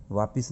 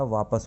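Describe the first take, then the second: First: "वापिस" with an i in the second syllable; गलत उच्चारण. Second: "वापस" with a schwa in the second syllable; सही उच्चारण. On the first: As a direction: say "वापिस" as vaa-pis. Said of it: "वापिस नहीं होता". ("वापिस" में इ की ध्वनि) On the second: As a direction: say "वापस" as vaa-pus. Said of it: "वापस होता है". ("वापस" में अ की ध्वनि) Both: Shown as a demonstration.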